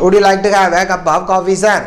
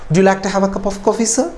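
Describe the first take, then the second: First: It is said flatly, without expression. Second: It is said with lively, polite expression. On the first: The speaker calls it wrong. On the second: The speaker calls it right.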